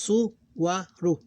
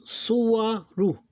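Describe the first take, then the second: First: "Suwaru" repeated slowly, a little higher, syllables kept apart; teacher repeating the word to drill it. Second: "suwaru" slow, higher and louder, each syllable su-wa-ru drawn out; teacher splitting a word into three syllables. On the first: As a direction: say "Suwaru" again slowly, one syllable at a time. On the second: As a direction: spell "suwaru" out slowly by syllables. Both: Shown as a demonstration. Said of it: "three syllables".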